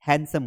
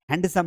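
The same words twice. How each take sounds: First: हैंडसम said as "hansum", no d; हैंडसम with the d left out; silent d. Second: हैंडसम said as "hand-sum", d sounded; हैंडसम with an audible d; wrong way with d. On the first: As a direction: drop the d in हैंडसम. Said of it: "हैंडसम होता है". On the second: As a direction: pronounce the d in हैंडसम as the error. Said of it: "हैंडसम नहीं होता है". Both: Shown as a demonstration.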